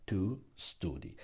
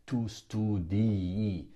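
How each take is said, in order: First: Tu STUDI with one short i at the end, softer; single final I. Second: Tu STUDI with a long, doubled final i, slowly; drawn-out double I. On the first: Teacher shows learners the right form, one short final i. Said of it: "you just say one I". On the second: Teacher warns learners off the wrong form, long doubled final i. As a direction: stretch the end of "studi" into two i sounds. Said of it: "You don't say tu studi". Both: Shown as a demonstration.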